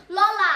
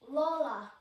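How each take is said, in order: First: Lola called out loud. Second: Said in the usual way. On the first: Real, not acted. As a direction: shout Lola happily. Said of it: "louder repeat of name". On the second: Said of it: "says name twice differently".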